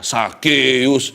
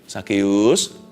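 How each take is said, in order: First: The name is said with contempt. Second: The name is called warmly and tenderly. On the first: The speaker despises him. "di belakang layar, ketika dia nggak mendengar" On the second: The caller loves him. "Ini pasti ada intonasinya cara Tuhan memanggil"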